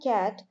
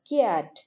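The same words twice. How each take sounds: First: The vowel follows the first consonant directly. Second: A y sound follows the first consonant. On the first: The speaker calls it right. "instead of pronouncing cat" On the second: The speaker calls it wrong. "they will include a particular Y sound"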